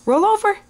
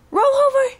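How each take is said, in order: First: Put-on high baby talk. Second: Squeaky high coaxing; very high baby talk. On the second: Pretend. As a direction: coax it way up high. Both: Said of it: "show everybody how you roll over".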